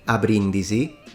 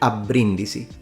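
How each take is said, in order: First: The B is short and single. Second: The B is long and doubled. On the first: The speaker calls it wrong. "should not be pronounced a Brindisi" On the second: The speaker calls it right. "with a double B"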